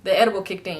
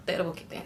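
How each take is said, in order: First: Said in the usual way. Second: Much softer repeat of The edible kicked in; quiet aside. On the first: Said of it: "No, I was just". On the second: Real, not acted. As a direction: drop the repeat to almost nothing.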